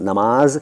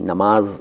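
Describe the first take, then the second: First: The middle consonant is an m sound. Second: The same.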